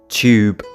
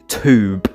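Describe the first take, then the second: First: The word begins with a 'ch' sound. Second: The word begins with a plain 't' sound. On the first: The speaker calls it right. "we pronounce the combination of letters T U as if it's a C H U" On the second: The speaker calls it wrong. "We don't say tube"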